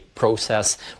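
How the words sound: The word is said the Canadian way.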